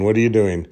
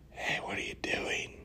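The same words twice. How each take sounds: First: Said in the usual way. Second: Hushed whisper from close behind; sneaky, very soft whispered question. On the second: Retold or imitated. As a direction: whisper it like a playful tease. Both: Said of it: "talk to her while whispering".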